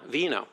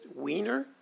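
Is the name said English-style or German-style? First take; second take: German-style; English-style. First: The name is pronounced the German way. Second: The name is pronounced the English way. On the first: The speaker calls it right. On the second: The speaker calls it wrong. "it doesn't sound good in English"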